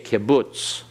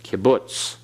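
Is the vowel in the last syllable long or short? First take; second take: short; short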